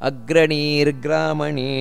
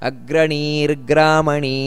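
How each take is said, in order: Both takes have the same delivery.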